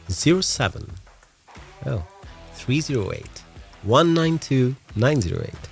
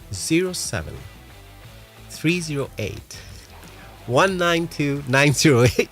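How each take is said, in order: First: It is said in a deep, dramatic movie voice. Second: It is said quickly in an ordinary voice. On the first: "say that again with your deepest movie voice" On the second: "I go so fast"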